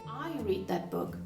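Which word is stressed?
I. The stress falls on the word I. It was me, not someone else, who read it. "not Anna"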